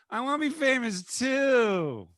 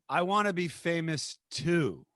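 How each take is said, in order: First: It is said in a whiny voice. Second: It is said plainly, without whining.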